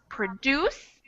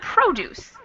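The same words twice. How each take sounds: First: The stress is on the second syllable. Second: The stress is on the first syllable. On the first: It is used as a verb. "when we have a two syllable verb, it gets the stress on the second syllable" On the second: It is used as a noun. "Produce gets the stress in the beginning of the word"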